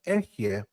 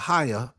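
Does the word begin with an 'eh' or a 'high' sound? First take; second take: eh; high. First: The word begins with an 'eh' sound. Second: The word begins with a 'high' sound. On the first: "but Ehye" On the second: "I don't say higher"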